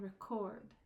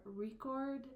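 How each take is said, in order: First: "record" as ruh-CORD, second syllable stressed. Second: "record" with the first syllable punched; first-syllable stress. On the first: Teacher shifting stress for meaning, weight on second syllable. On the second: Teacher shifting stress for meaning, weight on first syllable. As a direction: hit the start of "record". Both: Shown as a demonstration. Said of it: "the stress of the word".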